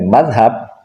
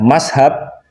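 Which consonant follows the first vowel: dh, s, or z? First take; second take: dh; s. First: The middle consonant is a soft 'th' sound. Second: The middle consonant is an 's' sound. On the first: The speaker belongs to the pesantren tradition. "Kalau fasih mengucapkannya dengan madhab, nah itu santri" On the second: The speaker is far from the pesantren tradition. "Kalau mengucapkannya mashab, itu jauh dari tradisi santri"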